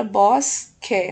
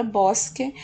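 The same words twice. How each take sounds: First: BOSQUE split as BOS... QUE; two separate beats on BOSQUE; syllable by syllable. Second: Said in the usual way. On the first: Shown as a demonstration. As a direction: hold the S in BOSQUE, then QUE apart. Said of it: "a primeira sílaba também termina". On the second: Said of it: "Na palavra bosque".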